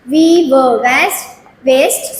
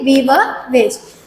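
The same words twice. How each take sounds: First: Drawn-out slow We were waste; very slow syllable reading. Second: Slow, careful We were waste; very slow repeat. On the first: Teacher to nursery pupils, reading waste very slowly. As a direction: spell it out very slowly for little ones. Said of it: "with syllables". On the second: Teacher confirming the word to pupils, very slowly. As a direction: repeat it slowly and clearly for the class. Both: Shown as a demonstration.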